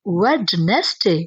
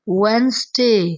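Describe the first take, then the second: First: The middle 'd' is pronounced, with three syllables. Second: The middle 'd' is silent, with two syllables. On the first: The speaker calls it wrong. "बड़े बड़े students भी इसे वेडनेसडे बोलते हैं" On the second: The speaker calls it right. "इसमें डी नहीं आता, ये इसे हम लोगों ने साइलेंट कर देना है"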